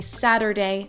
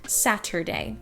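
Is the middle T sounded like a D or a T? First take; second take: D; T. First: The middle T sounds like a D. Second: The middle T sounds like a T. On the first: "I will say Saturday" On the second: "not Saturday"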